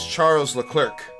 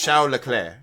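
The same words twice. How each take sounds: First: The name is read the English way. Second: The name is said the French way. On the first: "his name is" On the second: "it's pronounced"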